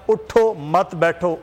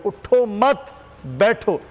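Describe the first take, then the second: First: उठो set apart, then मत बैठो together; pause after उठो. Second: उठो मत together, raised, then बैठो alone; pause after मत. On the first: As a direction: say उठो slowly, break, then join मत to बैठो. (उठो के बाद ठहराव, मत बैठो साथ में) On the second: (उठो मत साथ में, फिर ठहर कर बैठो) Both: Shown as a demonstration. ठहराव से अर्थ बदलने की मिसाल.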